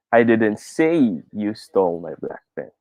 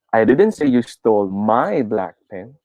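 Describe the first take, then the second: First: The stress falls on the word say. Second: The stress falls on the word my. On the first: It was typed or posted, not spoken. "Let's try to put it on the third word" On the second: A different person's pen was taken. "Try natin sa my"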